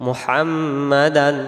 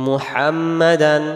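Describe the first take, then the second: No difference in how they are said.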